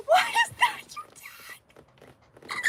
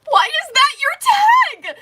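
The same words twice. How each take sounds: First: High breathy whisper, slow and drawn out; teasing whisper. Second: High, loud and slow, mock outrage at the tag; loud teasing. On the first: Streamer teasing a viewer over their tag, whispered. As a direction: whisper the question like a secret. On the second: Streamer teasing a viewer over their tag, loud and high. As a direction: drag it out in loud playful disbelief. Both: Real, not acted. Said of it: "teasing chat about a viewer's tag".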